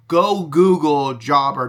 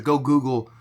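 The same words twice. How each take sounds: First: "go Google Jobber" slow and loud, Google punched; stress on Google. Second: Said in the usual way. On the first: Shown as a demonstration. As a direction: drag out "Google", hit it hard. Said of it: "repeats with emphasis". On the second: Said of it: "repeats the phrase".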